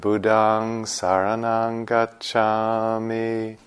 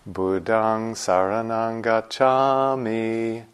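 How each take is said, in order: First: The pitch on gacchami stays flat. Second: The pitch on gacchami moves up and down. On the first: This is the East Coast way. "we'll do the flat on the gacchami" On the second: This is the West Coast way. "On the West Coast, we do it like this"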